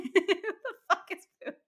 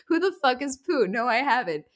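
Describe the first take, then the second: First: Put-on high Australian accent cracking into laughter. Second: Lightly put-on Australian accent, pitched up; retold reply in a mild Australian accent. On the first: Fiance replying to the prank, high Australian accent breaking into laughs. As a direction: attempt an Australian accent while giggling helplessly. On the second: Fiance puzzled by Poot, lightly imitated Australian accent. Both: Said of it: "naturally beautiful Australian accent".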